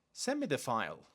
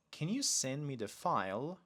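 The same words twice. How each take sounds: First: Too direct. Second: Polite question with rising end; polite request. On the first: Teacher showing learners a too-direct request, direct. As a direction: direct command with falling end. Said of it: "but too direct". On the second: Teacher showing learners a better request, polite and rising. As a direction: ask it politely, lifting toward "file". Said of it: "Much better". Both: Shown as a demonstration.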